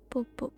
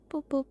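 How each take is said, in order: Both takes have the same delivery.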